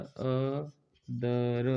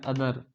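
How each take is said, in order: First: अदर broken slowly into a, tha, r; अदर very slowly, sound by sound. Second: Said in the usual way. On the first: Shown as a demonstration. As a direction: draw out each sound of अदर separately. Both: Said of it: "इसमें sound आ रहा है".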